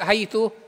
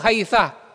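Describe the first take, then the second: First: The word ends in an u vowel. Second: The word ends in an a vowel. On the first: "damma talaga yung dulo niya" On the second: "ang pronunciation nila nito haytha"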